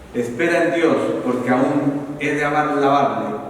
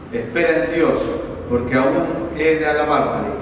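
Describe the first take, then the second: Both takes have the same delivery.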